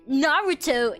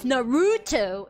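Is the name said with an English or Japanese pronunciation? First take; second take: Japanese; English. First: The name is said in a Japanese-style way. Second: The name is said in an English-style way. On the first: This is the form the fan insists on. The speaker calls it right. "actually, is it's um um Naruto instead of" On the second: This is the form the fan corrects. The speaker calls it wrong. "instead of"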